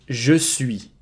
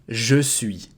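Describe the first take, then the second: Both takes have the same delivery.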